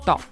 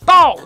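First: It is said very quietly. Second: It is shouted loudly.

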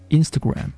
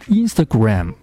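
First: The stress is on the first syllable. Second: The stress is on a later syllable. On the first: The speaker calls it right. "而是Instagram，重音出现在第一个音节" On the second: The speaker calls it wrong. "它的发音不是Instagram"

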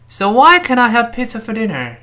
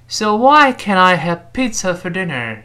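First: The sentence is said quickly. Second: The sentence is said slowly. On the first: "我们再快点" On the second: "我们慢慢的把这句话读一遍"

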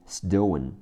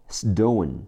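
No difference in how they are said.

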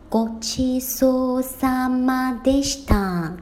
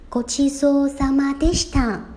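First: The phrase is spoken at a slower speed. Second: The phrase is spoken at a normal speed. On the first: "那我稍微放慢这个语速。" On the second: "大家可以听一下。"

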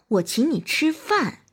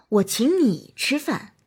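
First: The stress is on the word 饭. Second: The stress is on the word 你. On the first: "突出饭" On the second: "突出你"

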